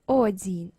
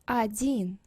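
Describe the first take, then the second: First: The first vowel is a full 'o' sound. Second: The first vowel sounds almost like 'a'. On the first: The speaker calls it wrong. "we say not один" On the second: The speaker calls it right. "we say like almost а"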